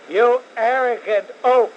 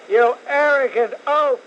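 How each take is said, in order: First: Raised, loud scornful jab; angry insult. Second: Higher, louder scornful repeat; angrier insult. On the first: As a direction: spit the insult at him. Host insulting governor on air. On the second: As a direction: hammer the insult home. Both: Real, not acted.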